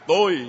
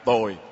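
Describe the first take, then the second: First: The word is said on a level tone. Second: The word is said with a low falling tone. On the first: It means I. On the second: It means bad.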